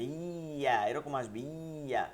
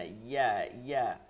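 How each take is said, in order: First: ইয়া said too hard, drawn out from the jim position; over-hard ya. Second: ইয়া with a light, relaxed glide, shorter and lower; softer ya. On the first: Teacher showing students how ইয়া goes wrong from jim's place, over-hard. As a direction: show ইয়া wrongly stiff and long. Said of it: "অন্যরকম উচ্চারণ চলে আসবে". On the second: Teacher correcting the too-hard ya for students, softened. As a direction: say ইয়া gently, not pressed hard. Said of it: "এত শক্ত হবে না". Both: Shown as a demonstration.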